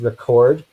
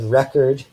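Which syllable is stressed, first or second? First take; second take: second; first. First: The stress is on the second syllable. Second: The stress is on the first syllable. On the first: It is a verb. "or we can have final stress" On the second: It is a noun. "initial stress in English, so the first syllable is stressed"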